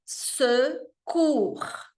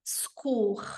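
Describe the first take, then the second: First: Secours com o E de lábios de O e som de E; E francês lento. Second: Secours rápido e suave, E quase sumindo; E caduc. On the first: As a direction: pronuncie o E de Secours completo. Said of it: "um E francês, que é o secours". (Secours com E francês) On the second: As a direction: engula o E de Secours como nativo. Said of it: "os franceses falarem secours". (Secours com E caído) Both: Shown as a demonstration.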